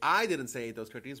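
The stress is on the first word, 'I'. Someone else said it. "well, someone else said it"

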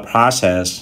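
It is said in an American accent. "người Mỹ đọc là"

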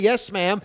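It is said cheerfully and willingly.

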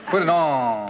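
It is said in a Southern accent. "In the South"

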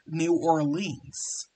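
It is said with an American pronunciation. "Or how the Americans say it"

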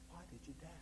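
It is said in a gentle, loving tone. The asker is hurt but caring. The speaker calls it right. "He looked at John with all the love that God has"

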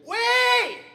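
The voice is tight and strained. The speaker calls it wrong. "If you over squeeze it"

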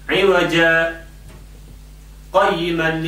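A short breathless pause separates the two words. The speaker calls it right. "you pause when you come here... I did not breathe in"

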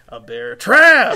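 Bear is quiet and trap is said loudly.

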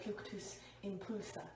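The spell is said grandly and theatrically. The speaker calls it wrong. "make it sound like as fancy as possible"

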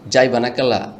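It is said in the Dhaka dialect. "ঢাকাইয়ারা যদি বলে তারা এভাবে বলবে"

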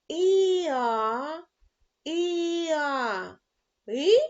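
It is read with a rising question tune. "А тепер читаємо із питальною інтонацією"

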